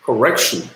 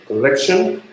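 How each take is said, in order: First: Correction said with a clear R in the middle; R pronunciation. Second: Correction said "collection", with an L; L in place of R. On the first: Learner showing the L and R difference, R in correction. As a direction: say correction as "ko-REK-shun". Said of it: "of the pronunciation of L and R". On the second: Learner showing the L and R mix-up, L in correction. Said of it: "In this way". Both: Shown as a demonstration.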